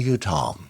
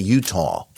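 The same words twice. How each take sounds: First: It is said in a British accent. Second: It is said in a New York accent. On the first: "the sort of British part of me wants to say Utah" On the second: "the New York part of me wants to say Utah"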